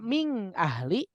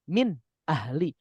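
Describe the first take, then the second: First: The n sound is blended, not said clearly. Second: The n sound is pronounced clearly and distinctly. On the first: The speaker calls it wrong. "Tidak mungkin dibaca ming, ahli" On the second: The speaker calls it right. "Pasti dibacanya min, ahli"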